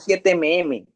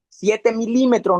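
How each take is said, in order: First: The unit is said as two letter sounds. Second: The unit is said as the full word. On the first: The speaker calls it wrong. "no siete mm" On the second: The speaker calls it right.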